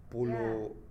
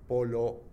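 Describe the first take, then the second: First: The first vowel sounds like 'u'. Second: The first vowel sounds like 'o'. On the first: The speaker calls it right. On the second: The speaker calls it wrong.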